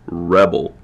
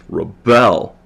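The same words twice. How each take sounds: First: The stress is on the first syllable. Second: The stress is on the second syllable. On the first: It is used as a noun. "Stress on the first word. That's the noun form" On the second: It is used as a verb. "the stress is on the second syllable with rebel with the verb form"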